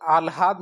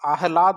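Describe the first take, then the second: First: आह्लाद said as aal-haad, l before h; wrong pronunciation. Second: आह्लाद said as aah-laad, h before l; correct pronunciation. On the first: Teacher shows students the mistake, wrong pronunciation. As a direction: say आह्लाद with the h and l swapped. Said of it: "नहीं होता". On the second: Teacher corrects the word, correct pronunciation. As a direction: sound the h first in आह्लाद, then laad. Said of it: "होता है". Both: Shown as a demonstration.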